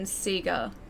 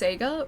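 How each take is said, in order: First: The word has the Australian pronunciation. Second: The word has the North American pronunciation. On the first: "here in Australia, it has always been Sega" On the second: "for anyone in the States uh, or in North America, uh, generally speaking, I think that's all pronounced Sega"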